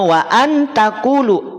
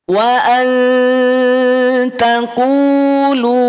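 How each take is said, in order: First: The n before t is pronounced clearly. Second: The n before t is hidden and nasal. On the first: "nun dibaca jelas asal muasalnya" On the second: "berubah jadi ang ... dengan kadar samar yang lemah"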